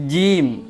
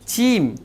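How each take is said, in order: First: It begins with a j sound. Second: It begins with a ch sound. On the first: The speaker calls it right. "Harusnya dia tarik ke atas" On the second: The speaker calls it wrong. "Dia menempatkan huruf jim di ujung lidahnya"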